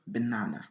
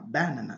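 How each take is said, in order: First: The stress is on the second syllable. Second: The stress is on the first syllable. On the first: The speaker calls it right. "La bonne prononciation, c'est dire banana" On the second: The speaker calls it wrong. "Si on met l'accent sur la première syllabe, on va rater la prononciation. ... ce qui est la mauvaise prononciation"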